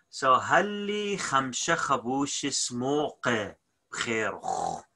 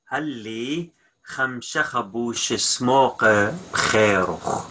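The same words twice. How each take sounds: First: Said in the usual way. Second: Slow, every word distinct; careful slowed-down repeat; slow clear model. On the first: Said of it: "teacher models the sentence". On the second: Shown as a demonstration. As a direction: lay it out slowly for learners. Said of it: "teacher repeats the full sentence slowly".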